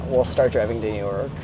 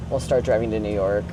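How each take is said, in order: Both takes have the same delivery.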